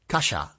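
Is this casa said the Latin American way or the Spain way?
Spain. The S is not a plain hissing sibilant. "But in Spain, they say casa"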